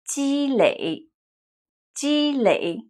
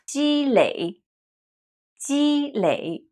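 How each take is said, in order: Both takes have the same delivery.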